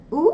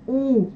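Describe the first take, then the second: First: U short and forward in the mouth; brief French U; French vowel. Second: Full Russian U from the throat; Russian vowel. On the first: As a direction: say U briefly at the front. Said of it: "premièrement une voyelle française". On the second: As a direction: draw out U further back. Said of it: "puis une voyelle russe". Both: Shown as a demonstration.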